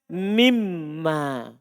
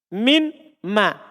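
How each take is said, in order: First: The n becomes m, giving a doubled m. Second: The n is heard before a separate m. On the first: "Nunnya berubah menjadi mim. Jadinya apa?" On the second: "Sebenarnya ini kalau diurai min ma"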